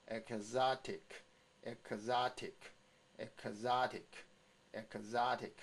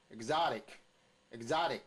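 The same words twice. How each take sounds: First: Exotic slowly, split into e-k-za-tic; syllable drill. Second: Exotic joined up, loud stress on ZA; stress put in. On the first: Teacher asks students to practise three times, syllable drill. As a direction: give each syllable of exotic its own beat. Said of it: "请各位先给我练". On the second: Teacher adds the stress after the drill, stressed demo. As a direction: punch the second syllable of exotic, rest light. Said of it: "然后把重音打下去哈". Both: Shown as a demonstration.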